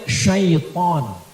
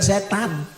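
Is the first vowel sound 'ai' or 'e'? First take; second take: ai; e. First: It starts with 'sy' and an 'ai' vowel. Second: It starts with plain 's' and an 'e' vowel. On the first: The speaker calls it right. "Nama asli dia syaiton" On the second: The speaker calls it wrong. "bukan setan"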